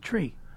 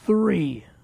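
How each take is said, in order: First: The word begins with a hard t sound. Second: The word begins with a soft th sound.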